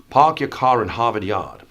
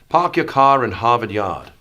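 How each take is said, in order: The two takes are said the same way.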